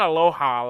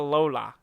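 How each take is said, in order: First: The middle consonant is an H sound. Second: The middle consonant is an L sound. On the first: The speaker calls it wrong. "It's not aloha like the Hawaiian greeting" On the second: The speaker calls it right. "it's not an H. It's an L"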